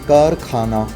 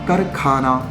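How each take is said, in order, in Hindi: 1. पहला स्वर लंबा है। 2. पहला स्वर छोटा है। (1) "लंबा आ है" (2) "माफ कीजिए"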